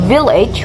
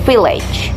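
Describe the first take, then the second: First: The word begins with a voiced V sound. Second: The word begins with a voiceless F sound. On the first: The speaker calls it right. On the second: The speaker calls it wrong.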